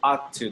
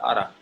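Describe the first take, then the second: First: Both words are said fully and separately. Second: The words blend, ending in a weak 'ta'. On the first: "they don't pronounce it ought to" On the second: "they pronounce it oughta. Kind of like this"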